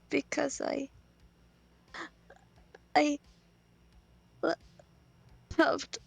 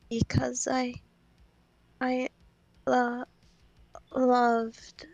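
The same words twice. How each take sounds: First: It is said with more tears. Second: It is said with fewer tears.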